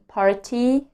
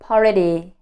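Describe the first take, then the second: First: The T is a clear, crisp T sound. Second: The T is a soft flap like D. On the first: The speaker calls it wrong. "Instead of saying party" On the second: The speaker calls it right. "I learned to say party"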